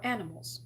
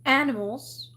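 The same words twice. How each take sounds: First: Said in the usual way. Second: "animals" drawn out with weight; capitalised-sounding word. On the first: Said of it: "whether it was meant to be". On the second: Shown as a demonstration. Elphaba puzzles over the fancy accent, "animals" said weightily. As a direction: give "animals" a fancy, lengthened delivery. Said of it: "couldn't tell by that fancy accent".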